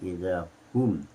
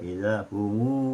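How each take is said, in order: First: The pronoun ends with a closed m sound. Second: The pronoun ends with an added u vowel. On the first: This is the usual Hafs reading. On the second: This is the Ibn Kathir reading.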